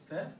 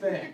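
First: "Fair?" with a rising tune like a question; asking tune on Fair. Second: "Fair." with a falling tune as a statement; settling tune on Fair. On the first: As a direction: ask "Fair?" with the pitch rising at the end. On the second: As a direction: close "Fair." with the pitch falling. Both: Real, not acted.

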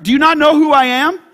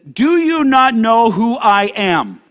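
First: High, loud, rising challenge; indignant rank-pulling. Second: Slow, weighty indignant question; pulling rank. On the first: Pilate challenging Jesus, loudly indignant. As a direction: throw it out as an outraged question. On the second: Pilate questioning Jesus, slowly pulling rank. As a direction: stretch each word with self-importance. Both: Acted.

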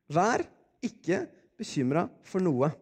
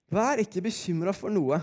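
First: "Vær", "ikke", "bekymret" set apart by pauses; slow reading, a clear break after "Vær" and "ikke"; word by word. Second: Said in the usual way. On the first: Shown as a demonstration. Preacher reads the Philippians verse out, word by word. Verse read out, then repeated.

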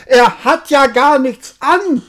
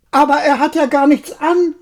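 First: High, loud crowd shout; whole crowd shouting. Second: Put-on high, loud child's voice; child calling out. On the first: Acted. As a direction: shout it out together. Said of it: "rief endlich das ganze Volk". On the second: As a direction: call out innocently like a small child. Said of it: "rief plötzlich ein kleines Kind".

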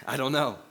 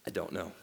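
First: Laughing repeat. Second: Dropped low and soft, almost under the breath; deadpan reveal. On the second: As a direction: let the punchline fall quietly. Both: Shown as a demonstration.

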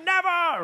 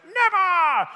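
First: Put-on high, loud defiant kid yell; child's shout. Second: Put-on high, loud kid yell of refusal; child's defiant shout. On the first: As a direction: bellow it like the stubborn nephew. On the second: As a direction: scream it like a stubborn little boy. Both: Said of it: "I just hear Caius shouting".

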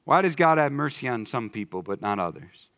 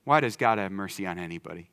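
First: Does leaned on, falling to the end; stress on does. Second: Why leaned on, softer and lower; stress on why. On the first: Preacher asking which ones get mercy, does stressed. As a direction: press the word does, then let it fall. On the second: Preacher turning the question around, why stressed. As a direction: hit why, then soften the rest. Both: Shown as a demonstration. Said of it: "Let's look at it a different way".

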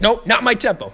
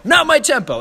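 First: High, loud imitated correction; first step of a mock escalation; mounting frustration. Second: Very high, loud mock yell; exasperated conductor's outburst, play-acted; raised intensity. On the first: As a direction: cut off the player, play-acted impatience. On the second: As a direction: escalate into an imitated furious shout. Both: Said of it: "he just, like, raises intensity".

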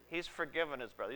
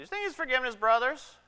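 First: Musing aloud. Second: "think" jumps much higher, fast, rising in disbelief; incredulous question. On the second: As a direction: push "think" up high as if you can't believe it. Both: Acted.

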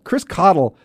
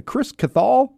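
First: Cottle as KOT-ul, stress up front, falling; corrected name pronunciation. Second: Cathal with a long, questioning second syllable; mistaken name pronunciation. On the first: Shown as a demonstration. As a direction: say Cottle like coddle, two short syllables. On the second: Real, not acted. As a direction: say Cathal as kuh-THALL, drawn out and rising, unsure. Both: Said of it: "so that's Cottle".

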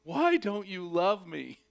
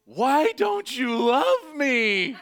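First: Slow, higher lament, short of a scream; plaintive cry. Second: Long, drawn-out high scream; anguished scream. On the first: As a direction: echo the wail slowly, held back. Repeats the scream, toned down. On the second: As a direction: wail it at full volume, stretching every word. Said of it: "I literally screamed". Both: Retold or imitated.

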